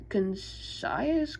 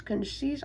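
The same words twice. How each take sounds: First: "concise" sounded out as con-SIGH-us; unsure pronunciation. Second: "Concise" as con-SEES, questioning; unsure pronunciation. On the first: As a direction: try "concise" with a long eye vowel, unsure. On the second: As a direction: try "Concise" with a long ee vowel, higher and rising. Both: Real, not acted. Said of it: "I, I don't know".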